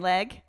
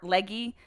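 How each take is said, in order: First: The name is said as one syllable. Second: The name is said as two syllables. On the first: The speaker calls it right. "it is leg" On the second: The speaker calls it wrong. "or Leggy"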